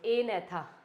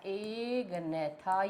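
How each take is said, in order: First: The g sound is dropped before the n. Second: The g sound is pronounced before the n.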